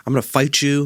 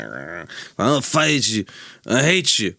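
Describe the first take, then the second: First: Said in the usual way. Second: Put-on slurred drunk threat, slowed; town drunk. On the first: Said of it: "He wasn't speaking like this". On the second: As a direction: slur it like a drunk at closing time. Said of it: "He was slurring his words and being like".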